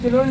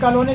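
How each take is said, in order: First: The first vowel is a short 'i' sound. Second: The first vowel is an open 'o' sound. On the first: The speaker calls it wrong. "किलोनी किलोनी नहीं" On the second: The speaker calls it right. "कॉलोनी कहते हैं उसको"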